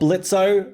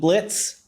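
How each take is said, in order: First: The name ends with a spoken o sound. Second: The name ends on a z sound, without o. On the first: "I keep saying Blitzo, you know, because there's the O" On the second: "the O is silent"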